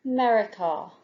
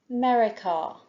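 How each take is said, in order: Both takes have the same delivery.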